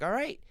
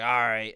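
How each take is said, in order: First: It sounds short and reassuring. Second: It sounds drawn out and ominous.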